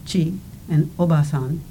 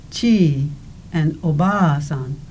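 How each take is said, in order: First: Short, clipped vowels in "chi" and "obasan". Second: Drawn-out vowels in "chi" and "oba-san"; long vowels. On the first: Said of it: "the vowel is short and clipped". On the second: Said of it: "the vowel is longer in duration". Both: Shown as a demonstration.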